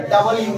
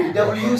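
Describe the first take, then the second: First: "डब्ल्यू" opened out as dabal-yoo; wrong reading. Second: "डब्ल्यू" as compact dabl-yoo; correct reading. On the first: Teacher warning students off it, dabal-yoo. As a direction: put a full vowel in "डब्ल्यू": da-bal yoo. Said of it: "डब्ल्यू नहीं होता है". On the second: Teacher telling students the only reading, compact dabl-yoo. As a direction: run "डब्ल्यू" together as dablyoo. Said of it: "डब्ल्यू सिर्फ होता है". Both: Shown as a demonstration.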